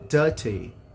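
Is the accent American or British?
British. It is said in a British accent. "no inglês britânico"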